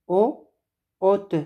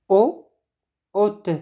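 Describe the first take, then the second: The two takes are said the same way.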